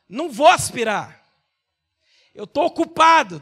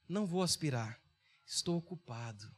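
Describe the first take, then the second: First: The sentence is said in a rude, irritated tone. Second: The sentence is said in a calm, friendly tone. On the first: The writer seems annoyed and dismissive. "Como é que ela entendeu a mensagem escrita?" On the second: The writer was simply busy with urgent work. "Eu escrevi com esse tom de voz"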